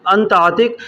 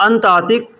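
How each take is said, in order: Both takes have the same delivery.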